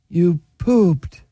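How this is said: It is said in a sad tone.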